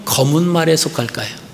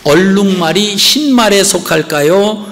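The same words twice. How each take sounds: First: 말에 leaned on, tune falling at the end; falling question. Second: 흰 stressed with a rising question tune; questioning rise. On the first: Pastor posing the second choice, falling tune. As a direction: let 검은 말에 drop and close. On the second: Pastor asking the congregation about the zebra, rising question. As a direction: lift 흰 and let the question rise. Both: Shown as a demonstration. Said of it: "이런 질문이 하나 있어요".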